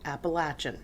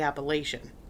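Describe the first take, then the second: First: It is said the southwestern Virginia way. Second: It is said the northern, local way. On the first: This is how people in southwestern Virginia say it. "when I was in southwestern Virginia, they say Appalachian" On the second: This is how people further north say it. "up here we say Appalachian"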